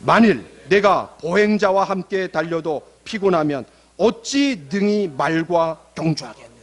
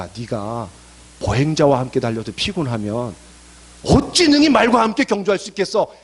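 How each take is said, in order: First: Slow, measured verse reading; slow congregational recitation; reading scripture aloud. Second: Starts low, builds to a forceful challenge; verse turned into a talking-to; blunt challenge. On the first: Shown as a demonstration. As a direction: read it out deliberately, phrase by phrase, for all to follow. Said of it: "다시 한번 읽어봅시다". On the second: Acted. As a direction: confront a struggling believer, low then louder on the question. Verse reworded as God's challenge.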